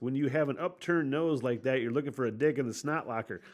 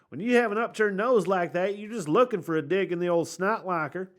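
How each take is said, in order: First: It is said without a redneck accent. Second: It is said in a redneck accent.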